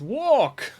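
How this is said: It is said in a dramatic, heroic accent. The speaker calls it right. "how should I actually say walk with that accent? And apparently it's walk!"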